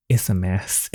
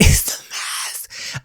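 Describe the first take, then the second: First: Said in the usual way. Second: Breathy laughing whisper of "It's a mess"; half-crying, half-laughing whisper. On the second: Real, not acted. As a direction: laugh it out under the breath, slowly. Laughing repeat of her own line.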